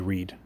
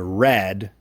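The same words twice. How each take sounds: First: It is pronounced as the present-tense form. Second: It is pronounced as the past-tense form. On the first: The action happens now or habitually. The speaker calls it wrong. "do not say read" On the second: The action already happened. The speaker calls it right. "past tense"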